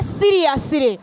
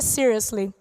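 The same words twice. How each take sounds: First: Every sound of the word is pronounced. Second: Some sounds are dropped from the word. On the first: The speaker calls it right. "We say seriously" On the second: The speaker calls it wrong. "we don't say seriously"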